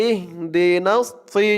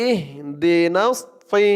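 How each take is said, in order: Both takes have the same delivery.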